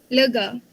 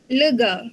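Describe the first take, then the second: No difference in how they are said.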